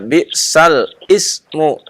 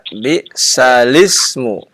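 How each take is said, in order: First: A glottal catch separates 'bi'sal' from 'ismu'. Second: The l runs straight into 'ismu' without a catch. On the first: The speaker calls it wrong. "Tidak boleh dibaca bi'sal ismu" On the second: The speaker calls it right. "Tapi dibaca bi'salismu"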